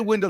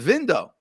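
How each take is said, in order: First: It is said in a plain standard accent. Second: It is said in an old-world accent. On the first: This is how most people say it. "They don't say window" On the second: This is how the older generation says it. "they say window"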